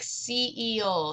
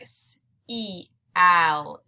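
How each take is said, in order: First: The vowels blend into one long E syllable. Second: The vowels are split into two separate syllables. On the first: The speaker calls it right. "We say this like seal" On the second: The speaker calls it wrong. "We don't say this like S-E-Al"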